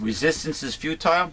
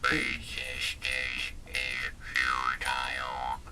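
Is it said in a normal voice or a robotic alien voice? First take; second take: normal voice; alien voice. First: It is said in a normal speaking voice. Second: It is said in a put-on alien voice.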